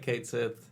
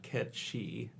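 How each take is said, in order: First: It is read as two words, 'Kate Sith'. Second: It sounds like 'Ketchi', with a 'ch' sound. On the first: It is read the way it is spelled. "It looks like Kate Sith" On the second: It follows the Gaelic pronunciation. "It's pronounced Ketchi because of crazy Gaelic languages"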